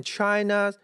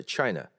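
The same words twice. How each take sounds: First: "China" with a full, drawn-out last vowel; wrong demo. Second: "China" falling to a short, weak last vowel; correct demo. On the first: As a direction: hold up the end of "China". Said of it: "不要读成". (错误示范：China尾音拖长) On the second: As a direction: drop the end of "China" quickly. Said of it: "而是China". (正确示范：China尾音弱读下降) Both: Shown as a demonstration.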